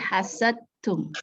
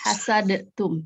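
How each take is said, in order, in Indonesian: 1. D ditahan tanpa pantulan. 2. D dilepas dengan pantulan yang bergema. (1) "Tapi hasadtum" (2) "Jangan dibaca ah, hasad apa hasadtum itu tidak"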